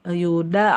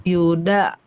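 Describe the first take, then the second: The two takes are said the same way.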